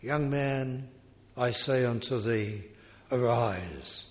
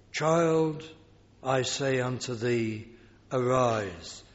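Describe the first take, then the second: First: Calm tender words over the dead; very gently. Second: Gentle command. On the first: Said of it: "he just said very gently". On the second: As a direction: wake her gently, like a parent. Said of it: "How gently". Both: Acted.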